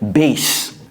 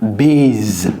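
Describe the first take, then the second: First: The word ends with an s sound. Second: The word ends with a z sound. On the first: The speaker calls it right. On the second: The speaker calls it wrong.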